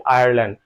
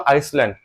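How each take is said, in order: First: আয়ারল্যান্ড said with no s sound; actual pronunciation. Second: আইসল্যান্ড said as written, with the s sounded; spelling pronunciation. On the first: Teacher showing how it is really pronounced, আয়ারল্যান্ড without any s. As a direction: say আয়ারল্যান্ড with the written s left silent. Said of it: "আর pronunciation কি বলি". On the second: Teacher showing how the spelling reads, আইসল্যান্ড with a sounded s. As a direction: say আইসল্যান্ড letter-true, sounding the s. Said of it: "spelling কি বলবো বলো তো". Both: Shown as a demonstration.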